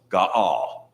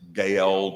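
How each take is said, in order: First: Two syllables, with stress on the second. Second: The name is said as one syllable. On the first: The speaker calls it right. "you have two syllables where it looks like one... The emphasis is upon the second syllable" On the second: The speaker calls it wrong. "a lot of people have a tendency to, to pronounce it Gael, but it, it's it's not"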